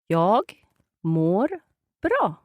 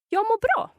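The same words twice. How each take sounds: First: The phrase is said slowly, word by word. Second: The phrase is said quickly, words run together. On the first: "can you slow that down?" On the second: "let's hear it run all together"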